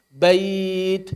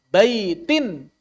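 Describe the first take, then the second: First: The word ends without an n sound. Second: The word ends with an n sound. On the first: The reader stops on this word. "Kalau waqaf jadi bait" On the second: The reading continues without a stop. "tanwin hanya dibaca saat wasal saja"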